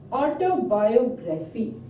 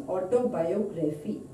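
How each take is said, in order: First: "Autobiography" in deliberate separate parts, auto then biography; prefix broken off. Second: Said in the usual way. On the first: Shown as a demonstration. Teacher showing a prefix example, "Autobiography" split into its parts. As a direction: spell out the parts of "Autobiography" by ear, beat by beat. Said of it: "Auto is prefix". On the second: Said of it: "it becomes autobiography".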